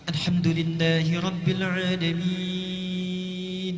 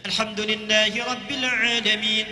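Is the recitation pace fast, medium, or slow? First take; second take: slow; fast. First: It is recited slowly with long drawn-out vowels. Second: It is recited quickly with short held vowels. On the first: "tiwal, yang paling panjang, enam harakat" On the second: "hadar ... dua harakat ... cepat"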